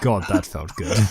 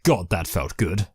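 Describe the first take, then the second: First: It is said with little enthusiasm. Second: It is said with more enthusiasm.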